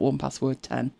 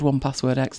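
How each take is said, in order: First: The last part is said as the number ten. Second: The last part is said as the letter ex. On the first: The speaker calls it wrong. "not 1Password 10" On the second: The speaker calls it right. "it is called 1Password X"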